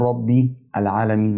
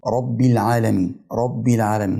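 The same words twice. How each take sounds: First: "ربي العالمين" as rabbi, stop, al-alamin; wrongly separated words. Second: "رب العالمين" run together as rabbil-alamin; joined words. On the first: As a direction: break after "ربي", then start "العالمين" afresh. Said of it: "ما ينفعش أقف". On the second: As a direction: link "رب" straight into "العالمين" without stopping. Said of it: "بوصلهم مع بعض". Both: Shown as a demonstration.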